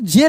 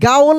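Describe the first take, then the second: First: It begins with a j sound. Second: It begins with a hard g sound. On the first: The speaker calls it right. "इसको जेल ही पढ़ते हैं" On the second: The speaker calls it wrong. "नहीं गाओल नहीं"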